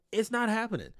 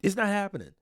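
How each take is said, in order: Both takes have the same delivery.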